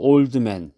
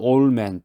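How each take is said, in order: First: The d sound in old is pronounced. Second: The d sound in old is dropped.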